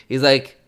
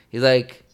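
No difference in how they are said.

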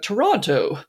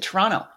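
First: The second T is clearly pronounced. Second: The second T is dropped. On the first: Said the way outsiders say it. "anyone from outside the area or outside of Canada, they're like" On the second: Said the way locals say it. "we pronounce it Toronto. ... The T is silent"

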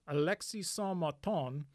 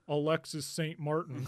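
First: The name is said with a French accent. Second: The name is said with an American accent.

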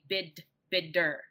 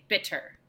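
First: The middle consonant is a soft d-like tap. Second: The middle consonant is a crisp, released t. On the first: The speaker calls it right. "But we do say bitter, d" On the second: The speaker calls it wrong. "if we wanted to really articulate it, we would say bitter, but nobody says that"

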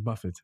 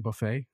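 First: The name is not said like 'buffet'. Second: The name is said like 'buffet'. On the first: The speaker calls it right. "Yes, it's Buffett" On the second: The speaker calls it wrong. "I was about to mispronounce it and say buffet"

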